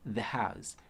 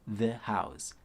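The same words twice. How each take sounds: Both takes have the same delivery.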